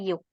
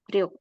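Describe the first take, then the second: First: The word starts with a y sound. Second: The word starts with an r sound. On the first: Used after a number ending in a final consonant. "biasanya yuk ini akan biasa digunakan ketika ada angka sebelumnya yang berakhiran bacim" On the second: Used when the preceding number has no final consonant. "biasanya pelafalan orang Korea otomatis akan mengatakan ryuk"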